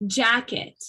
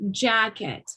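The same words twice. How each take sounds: First: "Jacket." with JACK stressed and "et" as a schwa; "Jacket." said as JACK-ət, first syllable strong. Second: "jacket." with JACK stressed and a falling, weak "ət"; "jacket." said as JACK-ət, first syllable strong. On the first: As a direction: punch JACK, let "ət" fall. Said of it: "Do you guys see the pattern?". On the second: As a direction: lean on JACK, then drop the ending. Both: Shown as a demonstration.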